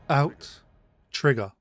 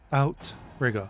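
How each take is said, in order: First: Two separate T sounds are heard in the middle. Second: The middle T is heard only once. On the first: The speaker calls it right. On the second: The speaker calls it wrong.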